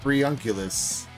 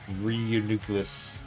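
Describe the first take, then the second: First: The middle of the name sounds like 'uncle'. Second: The middle of the name sounds like 'nucleus'. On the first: The speaker calls it wrong. "I've always called it Reunculus" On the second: The speaker calls it right. "like nucleus of a cell"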